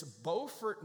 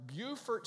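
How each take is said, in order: First: Beaufort said slowly, BOH-fert; North Carolina pronunciation. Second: Beaufort said higher, BYOO-fert; South Carolina pronunciation. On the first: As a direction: begin Beaufort like "bow and arrow". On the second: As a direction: begin Beaufort like "beauty". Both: Shown as a demonstration. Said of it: "If you say it wrong".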